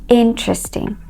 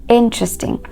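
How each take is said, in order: Both takes have the same delivery.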